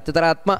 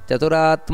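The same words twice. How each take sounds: First: The vowel after 'chatur' is short. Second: The vowel after 'chatur' is long. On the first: The speaker calls it wrong. "ಅಷ್ಟೇ ಅಲ್ಲ" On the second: The speaker calls it right. "ದೀರ್ಘ ಬರಬೇಕಲ್ಲಿ"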